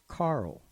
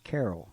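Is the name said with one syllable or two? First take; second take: one; two. First: The name is said with one syllable. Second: The name is said with two syllables. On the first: This is how the man himself said the name. "But he pronounced it as [name]" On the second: This is how most people said the name. "almost everyone pronounced [name]'s last name as [name]"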